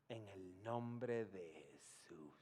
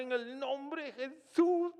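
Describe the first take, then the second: First: Slow, softer, lower hushed prayer. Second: Much higher and louder, slow and pleading; loud fervent prayer. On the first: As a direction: murmur it reverently at the bedside. Quiet prayer over the dying man. (oración lenta y en voz baja) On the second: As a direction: cry out to God for a miracle. Shouted prayer to raise the dead. (oración a gritos, alta y suplicante) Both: Retold or imitated.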